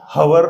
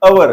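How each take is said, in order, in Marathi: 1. शब्दाची सुरुवात h आवाजाने होते. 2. शब्दाची सुरुवात स्वर आवाजाने होते. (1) "हवर नाही" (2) "ते काय अवर आहे"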